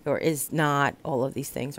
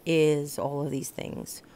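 First: "not" punched as the key word; stress on not. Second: "is" leaned on, said slowly; stress on is. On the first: Explaining the sign's dots to viewers, leaning on "not". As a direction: hit "not" to contrast with "is". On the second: Explaining the sign's dots to viewers, slow with "is" stressed. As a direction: dwell on the word "is", unhurried. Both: Shown as a demonstration. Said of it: "love, dot, dot, dot".

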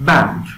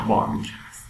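First: "بانک" said as English "bænk"; "بانک" loud, with the vowel of "cat"; English pronunciation. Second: "بانک" said the Persian way, "baank"; long open aa in "بانک"; "بانک" as an everyday Persian word; Persian pronunciation. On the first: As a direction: punch "بانک" with a short English a. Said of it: "بانک به معنای همون بانک". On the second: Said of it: "به معنای همون بانک هست". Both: Shown as a demonstration.

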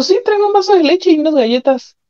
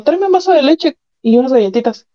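First: Higher, pushier repeat of the order; impatient repeat. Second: Casual order, pitched up a little; husband's demand. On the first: Husband repeats his order when she answers "¿Qué?", impatient. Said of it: "Me dijo". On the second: After the assault the husband casually orders milk and cookies. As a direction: toss off the request like nothing happened. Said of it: "Terminó y me dijo". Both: Retold or imitated.

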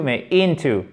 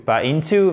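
First: Into stressed on IN, falling; the right way to say into; stress on first syllable. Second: Into stressed on the second syllabe, rising; the wrong way to say into. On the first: (accent tonique sur la première syllabe de into) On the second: (mauvais accent sur into, sur to) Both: Shown as a demonstration. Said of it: "Accent tonique sur la première syllabe".

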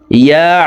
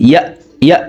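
First: ইয়া closing on a squeezed throat consonant; ayn from mid-throat. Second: Short ইয়া with a simple glottal stop; ইয়া ending as a hamza, not an ayn; ayn mispronounced as hamza. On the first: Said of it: "আইনের মাখরাজ হলকের মধ্যখান থেকে হবে". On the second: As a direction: cut ইয়া off quickly, no throat sound. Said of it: "আইনের উচ্চারণ হামজার উচ্চারণ করে থাকি". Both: Shown as a demonstration.

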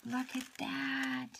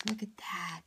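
First: Slow, higher, softer "Look at that" in delight; slow, higher, softer marvelling "Look at that"; awed, drawn-out. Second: Said in the usual way. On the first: Real, not acted. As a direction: stretch "Look at that" out in wonder. Admiring the pocket letter.

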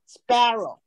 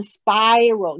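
First: "sparrow" slowly, first vowel a pure apple A; sparrow with open A. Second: "spiral" said as "spy-row", first vowel gliding to ee; sparrow mispronounced with I. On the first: Teacher modelling it correctly, "sparrow" with apple's open A. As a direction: keep "sparrow" free of any I glide. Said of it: "它是spa". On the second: Teacher echoing the learner's error, "spiral" as "spy-row". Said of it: "你变成念I了". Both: Shown as a demonstration.

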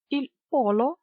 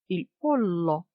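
First: Said in the usual way. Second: "полло" with a long held L; double L. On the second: Shown as a demonstration. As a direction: stretch the L in "полло". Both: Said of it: "з однією або подвоєною літерою".

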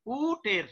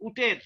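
First: উটের-এ প্রথম উ অনেক টেনে বলা; উটের শব্দের উ লম্বা ও ধীর; ভুল দীর্ঘ উ. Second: Said in the usual way. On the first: Shown as a demonstration. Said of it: "ততক্ষণ কি এখানে টানলাম না". (উটের-এর উ দীর্ঘ করে দেখানো) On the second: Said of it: "উটের রস্ব হয়ে গেল".

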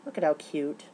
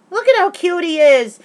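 First: Said in the usual way. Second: High, loud gushing squeal; gushing excitement. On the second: Real, not acted. Showing viewers her Shane photo, gushing squeal. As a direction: gush over him like a giddy fan.

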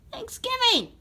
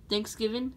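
First: THANKSGIVING squealed very high; excited squeal. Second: Said in the usual way. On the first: Acted. Red Yoshi celebrates tomorrow's holiday to Mario, excited squeal. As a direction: cry out the holiday in squeaky delight.

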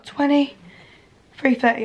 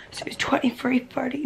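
First: "twenty-three thirty" said slowly and firmly, every syllable clear; deliberate "twenty-three thirty", drawn out; slow correction. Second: "twenty-three thirty" whispered, unvoiced and hushed; whispered first take. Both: Real, not acted. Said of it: "no, twenty-three thirty".

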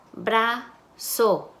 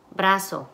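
First: Brazo split as "bra... zo" with a pause; syllable by syllable. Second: Said in the usual way. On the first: Shown as a demonstration. Teacher blending syllables for students, syllable by syllable. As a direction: break Brazo into two separate syllables. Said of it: "van a segmentar sílabas".

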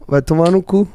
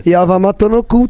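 First: Said in the usual way. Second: "E a Vama tô no cu" said as the reversed phrase; backwards speech. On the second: Shown as a demonstration. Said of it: "ao contrário".

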